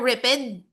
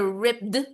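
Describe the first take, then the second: First: The ending is an extra syllable, ed. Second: The ending is a voiced d sound. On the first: "Hindi siya ripped" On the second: "Hindi din siya ripped"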